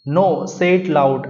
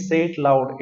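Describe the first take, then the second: First: Very slow, a bit louder, each word spaced; deliberate teacher's reading; slow read-aloud. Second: Said in the usual way. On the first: Shown as a demonstration. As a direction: spell it out slowly for the class. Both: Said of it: "अब उनकी teacher कह रही है".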